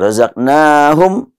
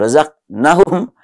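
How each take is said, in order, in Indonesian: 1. Vokal pada 'na' dibaca panjang. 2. Vokal pada 'na' dibaca pendek.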